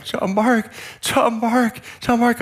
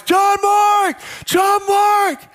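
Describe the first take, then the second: First: High-pitched cry of relief, reenacted; relieved calling. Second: Desperate high-pitched shout, reenacted; yelling at top of voice. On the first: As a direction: say the found child's name over and over with relief. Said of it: "it was the greatest relief". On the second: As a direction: call out for a lost child at full voice. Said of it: "yelling at the top of my voice".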